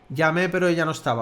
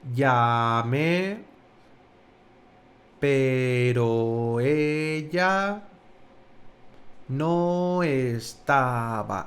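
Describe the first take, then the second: First: It is said at normal speaking speed. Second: It is said slowly, as if dazed.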